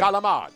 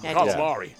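First: Italian-American style, with the final vowel dropped. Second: Standard American style, with the final vowel kept.

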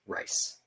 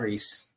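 First: The name rhymes with 'nice'. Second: The name rhymes with 'piece'. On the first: The speaker calls it right. "they actually pronounce it as Rice" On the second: The speaker calls it wrong. "Not Reese"

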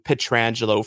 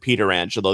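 First: The name starts with a short 'Petr' sound. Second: The name starts with a full 'Peter' sound. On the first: This is the newer form of the name. "forced the change into Petrangelo" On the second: This is the older family form of the name. "his uncle, that's how he said his name"

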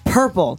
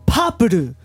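First: Plain English pronunciation ending in a consonant. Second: Japanese-style pronunciation with added vowels.

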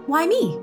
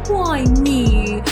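First: The question sounds curious and inquisitive. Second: The question sounds sad and self-pitying. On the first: The asker sees a lesson to learn. The speaker calls it right. "Like an inquisitive kind of curious question" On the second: The asker feels like a victim. The speaker calls it wrong. "we get all sad in ourselves and feel like victims"

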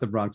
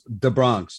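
First: The first word is a standard 'the'. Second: The first word is pronounced 'da'. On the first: The speaker calls it wrong. "it's not the Bronx" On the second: The speaker calls it right. "D-A, then B-R-O-N-X"

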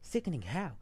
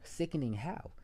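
First: It is said in an exaggerated put-on voice. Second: It is said in the speaker's normal voice.

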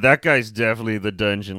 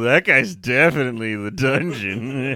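First: It is said in a serious, cautionary tone. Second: It is said in a flirty, suggestive tone. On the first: The man is dangerous. "like, watch the fuck out" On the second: The man is sexually appealing. "Or, oh"

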